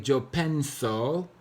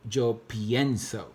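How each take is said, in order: First: "yo pienso" said wrong as penso, plain E with no IE. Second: "yo pienso" with the stem E changed to IE, pee-EN-so; correct pienso. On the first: Teacher demos the wrong form to the class, E left unchanged. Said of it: "you would not say". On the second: Teacher models the correct form for students, IE clearly said. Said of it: "You're gonna say". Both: Shown as a demonstration.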